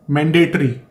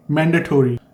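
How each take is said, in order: First: "mandatory" with a reduced "-tree" ending; usual Indian-English pronunciation. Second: "mandatory" with a full "-tory" ending; native-like pronunciation. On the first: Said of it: "saying mandatory instead of mandatory". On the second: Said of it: "when you are naturally speaking like a native English speaker". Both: Shown as a demonstration.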